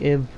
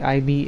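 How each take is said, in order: First: The ending is said as one short syllable. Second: The ending is said as two separate letters. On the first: "ib is the right way" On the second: "like a long B"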